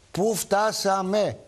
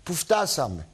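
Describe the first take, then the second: First: Lingering on πού φτάσαμε like a sigh of disbelief; slow drawn-out lament. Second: Said in the usual way. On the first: Real, not acted. Radio host lamenting to listeners, slow drawn-out πού φτάσαμε. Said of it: "repeated lament, drawn out". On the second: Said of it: "repeated lament".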